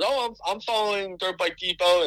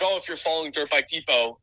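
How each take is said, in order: First: Imitated Southern accent, pitched higher; mock Southern accent, quoting a fan in the pits. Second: Said in the usual way. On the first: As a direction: lift the voice and put on a Southern accent. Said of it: "in his southern accent". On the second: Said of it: "he goes in his".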